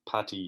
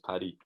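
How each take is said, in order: First: The middle consonant sounds like a T. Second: The middle consonant is a clear D. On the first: The speaker calls it wrong. "it's not patties like the Americans say" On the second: The speaker calls it right. "it's P A D D Y, so it's paddy"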